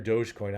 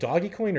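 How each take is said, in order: First: The first part sounds like 'dohj', one syllable. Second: The first part sounds like 'doggy', two syllables. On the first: "I thought the original meme was Doge" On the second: "I always say Doggy"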